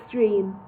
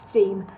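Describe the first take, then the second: No difference in how they are said.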